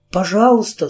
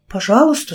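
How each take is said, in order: First: A high pained little squeak. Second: Higher pleading ask. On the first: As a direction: squeak it out in discomfort. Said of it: "страдальчески пискнула Кэрри". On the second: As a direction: beg a second time, higher. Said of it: "снова попросила Кэрри". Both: A narrator's reading.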